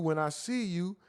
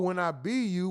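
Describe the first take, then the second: First: The verb starts with an S sound. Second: The verb starts with a B sound.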